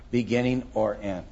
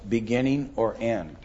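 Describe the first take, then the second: No difference in how they are said.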